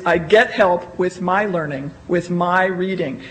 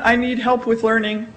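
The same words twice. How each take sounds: First: "get" stressed, voice lower and settled. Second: "need" marked as the rejected word; wrong phrasing. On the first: Teacher giving marketers the preferred learner phrase, "get" stressed. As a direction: hit "get" as the right version. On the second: Teacher contrasting the phrase to avoid. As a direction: present "I need help with learning" as what not to say. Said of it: "It's not". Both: Shown as a demonstration.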